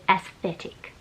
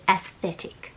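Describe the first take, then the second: First: The middle consonant is a th sound. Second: The middle consonant is a th sound.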